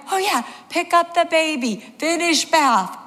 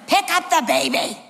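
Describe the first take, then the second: First: High-pitched, mock-flustered echo; acting out a frazzled mother remembering what to do; comic high voice, repeating orders to herself; dazed realisation. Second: High-pitched, exasperated command; acting out a husband telling his wife what to do; insistent raised-pitch instruction; urgent order. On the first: Panicked mother takes in the order.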